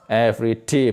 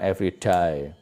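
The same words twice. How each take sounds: First: The last word is said like 'day'. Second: The last word is said like 'die'. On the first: It means each day. The speaker calls it right. "Every day, bukan every day" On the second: It sounds like talking about dying. The speaker calls it wrong. "bukan every day"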